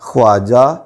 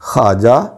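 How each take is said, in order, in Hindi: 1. kh के बाद w की आवाज़ पूरी तरह बोली जाती है। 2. kh के बाद w की आवाज़ मुश्किल से सुनाई देती है। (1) "वाव की आवाज़ के साथ करेंगे तो वो गलत होगा" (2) "दुरुस्त तलफ़्फ़ुज़ ये होगा"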